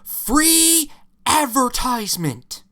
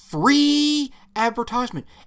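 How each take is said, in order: First: The word free carries no special stress. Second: The word free is strongly stressed.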